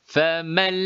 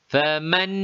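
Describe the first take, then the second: Both takes have the same delivery.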